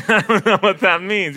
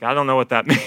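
First: Said in the usual way. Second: Laughing through the line "I don't know what that means". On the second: Retold or imitated. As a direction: let a laugh break into "means".

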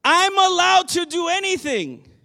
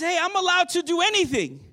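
First: Loud, high defiant claim. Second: Loud, high, cocky claim; defiant claim. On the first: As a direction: shout it out like a defiant crowd. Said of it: "their response is". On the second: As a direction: toss it out like a crowd that won't listen. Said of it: "That's their response". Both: Retold or imitated.

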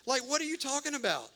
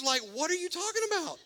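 First: Higher, fast, but less squeaky; a calmer rerun of the same protest; milder disbelief. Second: Much higher, fast, squeaky disbelief; incredulous squeal. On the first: Preacher repeating Gideon's protest with milder disbelief. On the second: Gideon protesting the jars and jelly beans, squealing in disbelief. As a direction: let the voice crack up in total disbelief. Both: Retold or imitated.

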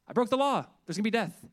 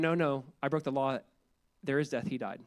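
First: Higher, louder alarmed cry; panicked mock dread. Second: Calm, settled reply. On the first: A sinner repenting like at Sinai, in loud mock panic. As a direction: blurt it out in mock terror of punishment. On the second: Retold or imitated. The speaker answers the panicked sinner, calm and assured. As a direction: gently set the record straight. Calm Calvary-style repentance.

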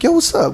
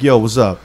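First: Wary high-pitched reply. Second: Lightly low, level greeting of a retold caller; cool caller greeting. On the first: Retold or imitated. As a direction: answer unsure, pitch jumping up. Retold wary reply to the caller. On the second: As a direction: greet coolly, giving nothing away. Retold caller opens the phone call.

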